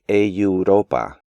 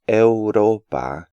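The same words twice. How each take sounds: First: A y sound comes between e and u. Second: No y sound comes between e and u. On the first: The speaker calls it wrong. "insert a yod sound between the E and U" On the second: The speaker calls it right. "Their correct pronunciation is"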